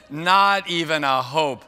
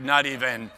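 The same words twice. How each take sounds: First: "not even a hope" loud and drawn out; emphatic repeat. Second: Said in the usual way. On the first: Real, not acted. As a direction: stretch "not even a hope" slowly at full volume. Emphatic repeat about missed audience reference.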